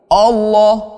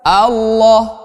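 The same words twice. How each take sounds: First: The first vowel sounds like an o. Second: The first vowel is a clear open a. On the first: The speaker calls it wrong. "orang-orang sering membaca dengan bacaan lafazul jalalah ini seperti ini" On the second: The speaker calls it right. "hamzahnya harus jelas"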